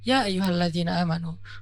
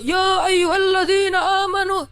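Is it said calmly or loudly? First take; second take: calmly; loudly. First: It is said calmly and relaxed. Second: It is said loudly, like shouting.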